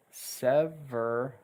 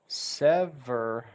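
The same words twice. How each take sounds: The two takes are said the same way.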